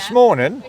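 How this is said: It is clipped to "smorning" in a Suffolk accent.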